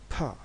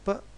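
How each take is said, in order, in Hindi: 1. इसे हवा के झटके के साथ बोला जाता है। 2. इसे बिना हवा के झटके के बोला जाता है। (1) "इसे एक्स्ट्रा प्रेशर के साथ अदा किया जाता है" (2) "इसको नॉर्मल किया जाता है"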